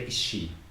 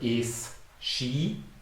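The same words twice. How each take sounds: First: The two words run together into one sound. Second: The two words are said separately and clearly. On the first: "when you say this quickly, you say is she" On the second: "you cannot hear is she"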